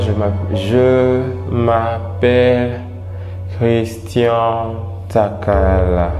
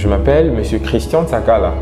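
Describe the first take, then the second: First: It is said slowly and sluggishly. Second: It is said promptly at a normal pace. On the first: The person is depressed. "sa manière de parler aussi devient ralentie" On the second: The person is not depressed. "je vous dirai carrément"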